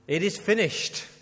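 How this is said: It sounds triumphant and celebratory.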